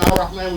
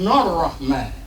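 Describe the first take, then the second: First: The word starts with a vowel, no n sound. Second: The word starts with a linked n sound. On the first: The reader stops before this word. "instead of saying Ar-Rahman" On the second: The reader joins it to the previous word. "we're going to take the noon from here"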